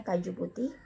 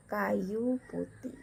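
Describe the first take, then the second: First: "kaju" with a hard j sound; J as written. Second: "kayu" with a y glide in place of j; J read as Y. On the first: Teacher citing the spelling, "kaju" said with a hard j. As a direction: say "kaju putih" with j as in jam. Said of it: "harusnya dibaca kayu putih". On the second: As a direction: say "kayu putih" carefully, ka-yu. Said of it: "harusnya dibaca". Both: Shown as a demonstration.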